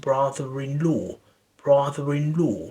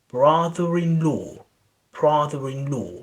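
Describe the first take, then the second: No difference in how they are said.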